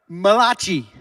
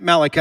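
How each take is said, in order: First: The name is given an Italian-sounding pronunciation. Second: The name is given a plain English pronunciation. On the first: "The Italian prophet" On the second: "otherwise you could say it Malachi"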